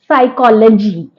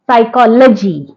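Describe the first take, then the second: The two takes are said the same way.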